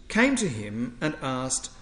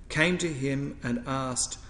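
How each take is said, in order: The two takes are said the same way.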